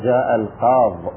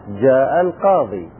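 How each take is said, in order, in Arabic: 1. تنتهي الكلمة الأخيرة بحرف ساكن. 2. تنتهي الكلمة الأخيرة بياء مدّ طويلة 'ee'. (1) "حذفنا الياء ووقفنا على ما قبلها وهو اللام بالسكون" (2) "فالكثير في الوقف عليه أننا نقف بإثبات الياء"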